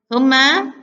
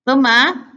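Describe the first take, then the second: The two takes are said the same way.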